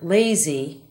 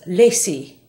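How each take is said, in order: First: The middle consonant is a Z sound. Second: The middle consonant is an S sound. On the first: The speaker calls it right. "the English word lazy" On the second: The speaker calls it wrong. "it will be said as lazy by Spanish speakers"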